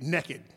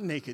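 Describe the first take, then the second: First: The word is said in a vernacular dialect pronunciation. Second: The word is said in standard pronunciation. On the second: "not naked"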